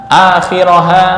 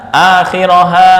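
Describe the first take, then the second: Both takes have the same delivery.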